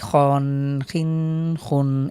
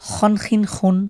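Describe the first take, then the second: First: The syllables are said slowly with drawn-out vowels. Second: The syllables are said quickly with short vowels. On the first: The speaker calls it wrong. "এটাকে আমরা কখনোই ... এভাবে পড়ব না" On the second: The speaker calls it right. "আমরা কিন্তু দ্রুত পড়ছি, এখানে কোনোভাবেই টান হচ্ছে না"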